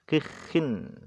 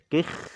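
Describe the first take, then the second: First: The kh is followed by an i vowel. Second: The word ends on the kh consonant. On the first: "wa maksuratan, dan dalam keadaan maksurah, dibaca kasrah" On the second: "Sakinatan, hal keadaan kha-nya tadi sukun"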